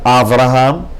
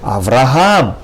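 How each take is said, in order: First: The stress falls before the last syllable. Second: The stress falls on the last syllable. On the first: The speaker calls it wrong. "not Avraham" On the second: The speaker calls it right. "In Hebrew you would pronounce it with the accent on the last syllable"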